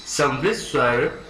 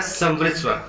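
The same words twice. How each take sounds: First: समवृत स्वर said slowly, each syllable clear; slow, careful term. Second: Said in the usual way. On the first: Shown as a demonstration. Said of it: "समवृत शब्द का जो अर्थ होता है".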